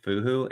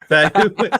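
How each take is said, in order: First: The first vowel sounds like 'oo'. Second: The first vowel sounds like 'eh'. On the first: The speaker calls it wrong. "we just keep ig- calling it, pronouncing it Fuhu, and we just ignore that" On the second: The speaker calls it right. "It's it's Fehu"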